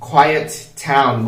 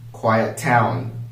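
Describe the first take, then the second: First: The two words are said separately. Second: The two words are linked together.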